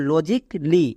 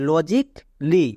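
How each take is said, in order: The two takes are said the same way.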